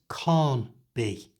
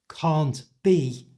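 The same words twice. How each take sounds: First: The T sound at the end of can't is dropped. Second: The T sound at the end of can't is pronounced.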